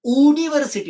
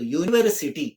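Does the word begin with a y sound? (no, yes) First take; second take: no; yes. First: The word begins with a plain vowel, no y sound. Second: The word begins with a y sound. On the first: The speaker calls it wrong. "युनिव्हर्सिटी नाही म्हणत" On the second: The speaker calls it right. "य येईल बघा"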